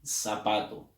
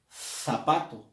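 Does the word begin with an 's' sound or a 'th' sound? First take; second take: s; th. First: The first sound is an 's' sound. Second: The first sound is a 'th' sound. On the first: "sino tú dices zapato" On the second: "Tú no dices zapato"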